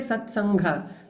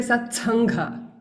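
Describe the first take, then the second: First: The t sound is unaspirated. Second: The t sound is aspirated. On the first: The speaker calls it wrong. "we don't say" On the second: The speaker calls it right. "We say ... all these we make it as Mahaprana"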